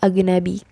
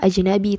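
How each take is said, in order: First: The middle consonant is a hard g sound. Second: The middle consonant is a soft j sound. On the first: The speaker calls it right. "tapi agnabi" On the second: The speaker calls it wrong. "bukan dibaca ajnabi"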